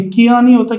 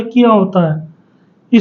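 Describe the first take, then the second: First: "किया" said quickly with a short i; "किया" with a brief, unstretched first vowel; छोटी इ का उच्चारण. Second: "किया" drawn out slowly, syllable by syllable; सही मात्रा का उच्चारण. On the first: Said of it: "छोटी की मात्रा आती है". ("किया" जल्दी में, ग़लत नमूने जैसा) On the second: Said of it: "छोटी की मात्रा होती है". ("किया" धीरे-धीरे, सही करके) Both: Shown as a demonstration.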